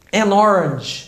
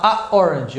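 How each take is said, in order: First: "An orange" joined as "a-norange"; linked sound. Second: "a orange" broken between the vowels; halting vowel clash. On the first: Teacher gives orange example, smoothly linked N. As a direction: flow from the N of "An" into "orange". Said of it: "eu tenho que dar uma travada". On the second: Teacher shows the wrong article, blocked vowel clash. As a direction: catch the tongue after "a", then say "orange". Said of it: "eu tenho que dar uma travada na língua". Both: Shown as a demonstration.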